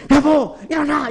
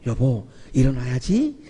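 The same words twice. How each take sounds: First: 높고 센 소리로 깨우기; 배우자를 다그쳐 깨우는 시범; 사랑 없이 다그치듯. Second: 낮은 목소리로 부드럽게 깨우기; 사랑을 담아 나직이 깨우듯; 따뜻하고 다정하게. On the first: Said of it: "이러면 내가 거기서 사랑을 못 느끼죠". (높게 다그치며 깨우는 소리) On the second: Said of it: "이러면 막 따뜻한 막 사랑이 느껴지죠". (낮고 따뜻하게 깨우는 소리) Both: Shown as a demonstration.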